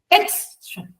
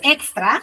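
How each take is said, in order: First: The final vowel is soft and weak. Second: The final vowel is full and strong. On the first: The speaker calls it right. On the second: The speaker calls it wrong. "No es extra"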